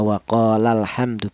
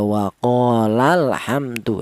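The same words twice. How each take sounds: First: The syllable 'la' is said plainly, without extra emphasis. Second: The syllable 'la' is pressed slightly higher and louder. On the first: One person said it. "biasa cara bacanya" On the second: Two people said it. "ada penekanan suara sedikit lebih tinggi"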